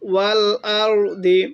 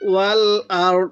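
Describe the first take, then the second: First: The word ends with a vowel after d. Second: The word ends on a light d consonant. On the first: The reading continues without stopping. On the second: The reader stops at this word.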